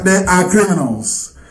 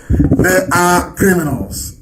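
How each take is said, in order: First: Said in the usual way. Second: They are criminals, each word dragged out slowly and pressed; slow emphatic accusation. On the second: Real, not acted. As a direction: spell it out slowly, leaning on "are". Repeats the same accusation slowly.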